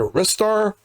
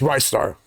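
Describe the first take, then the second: First: The first syllable has a short 'ih' vowel. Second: The first syllable has a long 'eye' vowel. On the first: The speaker calls it wrong. "I thought it was either Ristar" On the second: The speaker calls it right. "It's Rice Star"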